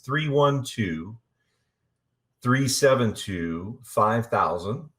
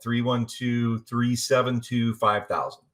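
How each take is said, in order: First: The number is said slowly. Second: The number is said at normal speed.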